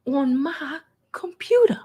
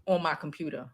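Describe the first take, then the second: First: Pointed repetition. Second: Said in the usual way. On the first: Real, not acted. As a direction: dwell on "my computer" in disbelief. Mockingly repeats it for effect.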